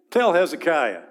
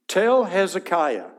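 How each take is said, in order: First: Disrespectful command. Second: Slow, higher, louder dismissive order; disrespectful command. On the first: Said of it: "a little bit of disrespect here". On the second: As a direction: bark it with contempt. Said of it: "not King Hezekiah, a little bit of disrespect". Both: Acted.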